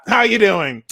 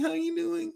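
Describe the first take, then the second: First: It sounds confident and dismissive. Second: It sounds shy and hesitant.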